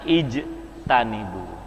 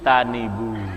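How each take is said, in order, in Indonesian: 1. Kata ini dimulai dengan vokal 'i' yang jelas. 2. Vokal pertama dihilangkan, disambung dengan kata sebelumnya. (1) "ketika kita pisahkan jadinya ijtanibu" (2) "hilang kan hamzahnya"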